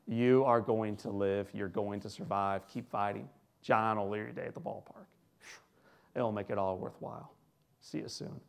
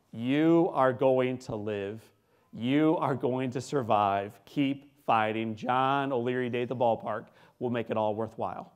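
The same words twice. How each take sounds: First: Low, soft reassurance; Jack Buck. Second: Slow, weighty announcer-like pledge; Jack Buck. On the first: Announcer back at the boy's bedside, tender and hushed. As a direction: quietly promise it, sinking to near-whisper by the end. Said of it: "walks in a second time and says". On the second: Announcer promising a dying boy a future, slow and emphatic. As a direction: draw out each word with firm conviction. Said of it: "I hear this voice that says to me". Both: Retold or imitated.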